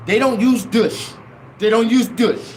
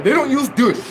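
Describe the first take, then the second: First: African church lady's phrasing. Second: Raised-pitch imitation of the church lady's "They don't use douche"; mimicking the lady's accent. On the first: Retold or imitated. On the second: Mocking the church lady's phrasing to the crowd, put-on voice. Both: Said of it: "that's the way they say it".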